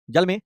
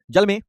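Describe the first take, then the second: No difference in how they are said.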